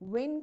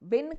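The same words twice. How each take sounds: First: It starts with a rounded-lip w sound. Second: It starts with a teeth-on-lip v sound. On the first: The speaker calls it right. "डब्ल्यू वाले वा की तरह" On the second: The speaker calls it wrong. "वी वाले वा की तरह pronounce कर रहे हैं"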